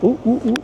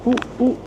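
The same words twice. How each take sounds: The two takes are said the same way.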